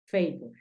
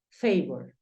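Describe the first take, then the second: First: "favor" repeated softly as "fey-bo"; soft second model of "favor", fey-bo; softer English repeat. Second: "favor" said the English way, "fey-bor"; English pronunciation. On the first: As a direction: quietly echo "favor" as fey-bo. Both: Shown as a demonstration. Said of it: "tú dices favor".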